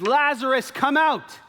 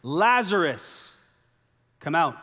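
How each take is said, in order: First: High, loud, drawn-out call. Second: 1 loud call. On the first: Acted. Jesus calling loudly into the tomb for Lazarus. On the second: A narrator's reading. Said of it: "he cried out with a loud voice".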